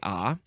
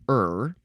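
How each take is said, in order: First: It is said as a long open vowel. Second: It is said with an r-colored vowel. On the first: "You can say ah. Um, usually with a prolonged prolonged vowel" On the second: "I would say er, because it's E R"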